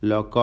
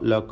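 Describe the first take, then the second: First: The vowels are heavy, rounded 'o' sounds. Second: The vowels are heavy, rounded 'o' sounds.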